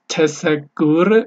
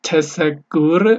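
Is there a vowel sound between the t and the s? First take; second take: yes; yes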